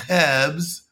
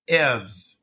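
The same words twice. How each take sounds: First: Mock French accent on "herbs"; imitated French-accented "herbs". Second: "herbs" in French-accented English without the h; mock French-accented "herbs", starting on the vowel; French accent, other variety. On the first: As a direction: say "herbs" as a French learner of British English. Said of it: "So a French person would say". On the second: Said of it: "or in English they say herbs". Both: Shown as a demonstration.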